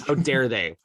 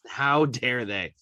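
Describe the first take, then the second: First: Said in the usual way. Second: How dare they? drawn out slowly, each word weighted; slow emphatic repeat. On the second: Real, not acted. Fan repeating his outrage at the smiling players, slowly.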